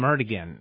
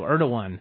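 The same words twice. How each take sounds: First: The middle consonant is a hard G sound. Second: The middle consonant sounds like a W. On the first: "I always call him Erdogan" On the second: "They use that G as like a W"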